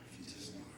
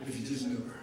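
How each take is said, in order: First: Unvoiced, hushed repeat; whispered aside. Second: Said in the usual way. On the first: Real, not acted. Pastor echoing his memory of Brenda in a whisper. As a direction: breathe it almost to yourself. Repeated line, second dropped to a hush.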